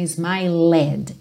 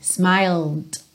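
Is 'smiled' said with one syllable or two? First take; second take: two; one. First: An extra vowel is sounded before the final D. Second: The L goes straight into the final D. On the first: The speaker calls it wrong. "Então não é smiled" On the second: The speaker calls it right. "lembra que o E não é pronunciado"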